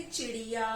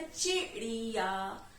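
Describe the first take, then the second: First: Said in the usual way. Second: चिड़िया broken slowly into "chi... ri-yaa"; syllable by syllable. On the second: Shown as a demonstration. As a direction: split चिड़िया after its short first syllable. Word repeated split into syllables.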